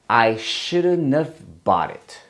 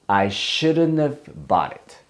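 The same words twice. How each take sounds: Both takes have the same delivery.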